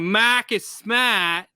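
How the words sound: The Boston accent is heavy and exaggerated. The speaker sounds like an outsider faking it. The speaker calls it wrong. "they know you're trying to force speaking like Bostonian"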